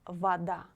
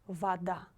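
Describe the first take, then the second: Both takes have the same delivery.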